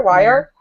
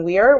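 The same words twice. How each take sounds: First: "Weir" said as "wire", two syllables, rising. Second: "Weir" said as "weer", rhyming with fear, rising. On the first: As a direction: say "Weir" like "wire" with a questioning rise. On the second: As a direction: say "Weir" like "weer" with a questioning rise. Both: Shown as a demonstration. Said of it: "How do you say his last name?".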